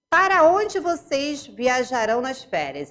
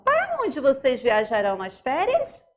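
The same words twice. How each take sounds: First: Para onde vocês viajarão nas férias? asked with a lifted tune; question intonation. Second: Para onde vocês viajarão nas férias? ending on a clear rise; rising question. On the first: Teacher reading a question aloud for the class, marked intonation. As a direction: read it plainly as a question. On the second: Teacher repeating the sentence for the class with a rising question tune. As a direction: let the voice climb on férias. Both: Shown as a demonstration. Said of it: "Já dei uma entonação".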